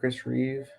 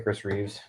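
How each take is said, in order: First: The name ends without any s sound. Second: The name ends with an added s sound. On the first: The speaker calls it right. "I say that Chris Reeve" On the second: The speaker calls it wrong. "I always used to say Chris Reeves"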